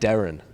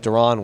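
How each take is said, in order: First: The name is said like the common name Darren. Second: The name is said as Deron, unlike Darren. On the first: The speaker calls it wrong. "I called him Darren, as in D, like Darren" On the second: The speaker calls it right. "It's Deron Win, okay?"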